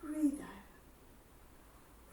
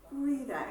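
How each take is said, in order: First: Whispered on the breath out; breathy exhale cue. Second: Said in the usual way. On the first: Shown as a demonstration. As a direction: let the words ride out on the exhale. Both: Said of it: "instructor cueing an exhale".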